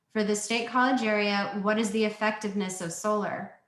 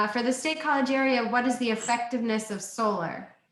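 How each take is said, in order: Both takes have the same delivery.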